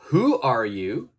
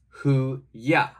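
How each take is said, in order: First: The words 'are you' are said in full. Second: The words 'are you' are reduced to 'ya'.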